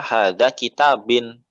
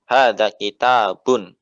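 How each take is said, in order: First: The last word ends with an 'in' sound. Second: The last word ends with an 'un' sound. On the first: The speaker calls it wrong. "jangan dibaca hadza kitabin" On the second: The speaker calls it right. "ya kaidahnya seperti itu"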